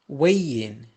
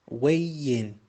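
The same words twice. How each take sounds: No difference in how they are said.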